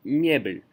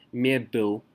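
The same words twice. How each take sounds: First: Мебель with softened b and soft final l; soft ending. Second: Мебель with a hard, dark l, like myebul; hard ending. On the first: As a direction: say "мебель" as myebil, palatalized at the end. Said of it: "means that it's soft". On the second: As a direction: end "мебель" unsoftened, close to myeboo. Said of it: "It's not мебель". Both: Shown as a demonstration.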